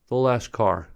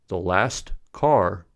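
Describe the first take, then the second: First: The t at the end of last is dropped. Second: The t at the end of last is pronounced. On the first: The speaker calls it right. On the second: The speaker calls it wrong.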